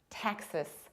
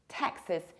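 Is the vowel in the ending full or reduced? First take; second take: reduced; reduced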